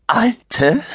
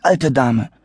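First: Alte much higher with indignant rise; shocked shrill lady; outraged echo. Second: Said in the usual way. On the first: Acted. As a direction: repeat alte in disbelief. Lady repeats the word.

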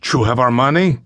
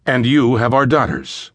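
First: Put-on a question in Spanish-accented English, lifting on "money". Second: "And you have our daughters" falling at the end; statement, not question. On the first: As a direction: ask "You have our money?" as a question with a Spanish accent. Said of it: "He addressed the fathers in accented English". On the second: A narrator's reading. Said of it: "a statement, not a question".

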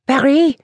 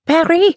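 First: Stunned outcry; cried. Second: Even higher, louder disbelieving cry; the same name flung louder still; shocked cry. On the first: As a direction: gasp it out in disbelief. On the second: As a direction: cry out, outraged and stunned. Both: A narrator's reading. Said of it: "cried Emilienne".

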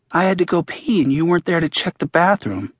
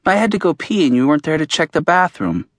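First: Lightly voiced boy repeating himself, a touch higher; voicing Max. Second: Lightly voiced boy, a touch higher and insistent; voicing Max. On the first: A hint of the boy's voice, repeated insistently. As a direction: Max repeats the complaint because it went unanswered. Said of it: "Max says again". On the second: A hint of the boy's voice, insistent. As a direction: narrator reading Max's complaint to his friend. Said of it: "Max says".

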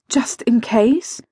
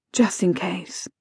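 First: "just in case" slow, rising high at the end; questioning. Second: "Just in case" softly, under the breath; resigned mantra. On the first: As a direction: ask "just in case" as a drawn-out doubt. Questioning herself, then repeating as mantra. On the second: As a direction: repeat "Just in case" quietly to oneself. Same words repeated as a mantra. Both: A narrator's reading.

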